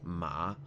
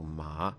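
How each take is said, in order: First: The pitch dips down and back up. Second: The pitch rises like a question. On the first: It means horse. "a dipping of your pitch" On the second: It means hemp. "it's a rising tone, so it's as if you're asking like a question"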